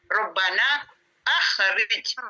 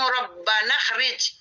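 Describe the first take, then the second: First: The hamza is pronounced with a clear glottal stop. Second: The hamza is dropped and the words run together. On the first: The speaker calls it right. "Harus bacanya" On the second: The speaker calls it wrong. "tidak boleh hamzahnya ini dibaca langsung"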